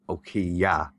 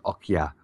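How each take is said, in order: First: The name and the ending are said separately. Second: The name and the ending merge into one word. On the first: "what they're actually saying is" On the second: "it just comes across really quickly as"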